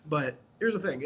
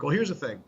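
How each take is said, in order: First: Said in the usual way. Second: Put-on a light unplanned twang of a country accent; odd accent. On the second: A hint of a country accent, explaining protein labels to a shopper. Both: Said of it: "I don't know where that accent came from".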